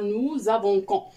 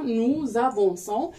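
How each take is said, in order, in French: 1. La consonne avant la terminaison se prononce k. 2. La consonne avant la terminaison se prononce s. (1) "لان الا ما كتبناهاش غنزيدو نقراوها" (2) "اكريغ هاد لاسيدي هادي باش نقراوها"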